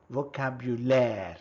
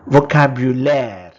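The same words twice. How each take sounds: First: Said in the usual way. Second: First take, projected clearly for the class; loud model word. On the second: Shown as a demonstration. Teacher modelling a French word for learners, loud and clear. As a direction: call out the French word loudly. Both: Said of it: "Vocabulary becomes".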